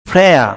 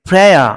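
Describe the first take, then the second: The two takes are said the same way.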